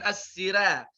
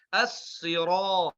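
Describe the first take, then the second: First: The r and following vowel sound light and thin. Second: The r and following vowel sound heavy and deep. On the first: The speaker calls it wrong. "bukan as-sira" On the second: The speaker calls it right. "ra-nya tebal juga"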